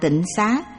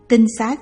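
First: The first syllable has a low, glottalized tone. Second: The first syllable has a level tone. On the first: The speaker calls it wrong. "Rất nhiều người đọc là tịnh xá vì nhầm lẫn" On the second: The speaker calls it right. "tinh xá là nơi tinh khiết"

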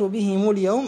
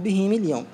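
First: The m is followed by a u vowel. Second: The m is followed by an i vowel. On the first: "يجوز الضم والكسر" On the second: "يجوز الضم والكسر"

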